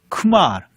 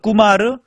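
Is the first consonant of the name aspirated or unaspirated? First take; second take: aspirated; unaspirated. First: The first consonant is strongly aspirated. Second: The first consonant is unaspirated and tense. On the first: This is the English pronunciation of the name. "영어 발음으로" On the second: This is the Indian pronunciation of the name. "쿠마가 인도"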